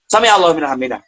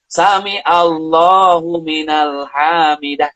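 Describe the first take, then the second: First: It is said quickly and hurriedly. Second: It is said slowly and calmly.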